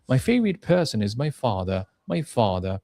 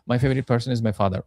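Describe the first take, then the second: First: Stressed "favorite person", then a falling "father"; stress on content words. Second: Said in the usual way. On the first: Shown as a demonstration. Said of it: "এই যে ওয়ার্ডগুলোতে জোর দেয়া". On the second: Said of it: "flat".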